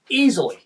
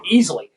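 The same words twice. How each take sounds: First: "easily" said higher, with a falling tune; emphatic repeat. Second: Said in the usual way. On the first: Real, not acted. Telling how hard Norcross crews work, emphatic repeat on "easily". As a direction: hit "easily" on a raised pitch for emphasis.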